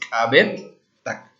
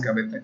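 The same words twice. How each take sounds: First: The middle t is held and said twice. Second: The middle t is said only once. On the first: The speaker calls it right. "es Cabetak" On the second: The speaker calls it wrong. "no es Cabetak"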